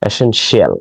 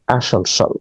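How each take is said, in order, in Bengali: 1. শেষাংশটি দুই ভাগের, যেমন 'shee-al'। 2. শেষাংশটি এক ভাগের ছোট উচ্চারণ, যেমন 'shul'। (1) "আমরা অনেক সময় একে শিয়াল বলে থাকি" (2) "আদতে উচ্চারণটা হবে ঠিক এইরকম ভাবে"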